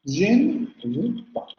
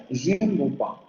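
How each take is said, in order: First: "Je ne veux pas" slowly, the e of "ne" clearly voiced and pitched higher; slow careful demo. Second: Said in the usual way. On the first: Shown as a demonstration. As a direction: model "Je ne veux pas" slowly with a pronounced schwa in "ne". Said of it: "se va a pronunciar la vocal". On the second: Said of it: "Siempre que tengamos je ne".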